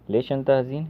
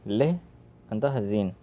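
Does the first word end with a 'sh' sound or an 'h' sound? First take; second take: sh; h. First: The first word ends with a sh sound. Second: The first word ends with an h sound. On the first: "लेश" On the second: "लेश को लेह भी बोलते हैं"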